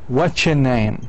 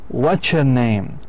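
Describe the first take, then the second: The two takes are said the same way.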